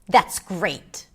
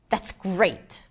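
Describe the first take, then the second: First: The voice sounds harsh and angry. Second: The voice sounds harsh and angry.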